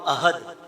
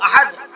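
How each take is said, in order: First: The h is a light, plain breathy sound. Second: The h is a deep, strong throat sound. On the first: It says something insulting about God. The speaker calls it wrong. "हा की जगह हा पढ़ दे, माना बन जाएगा बुज़दिल है।" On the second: God is one. The speaker calls it right. "कहो कि अल्लाह एक है।"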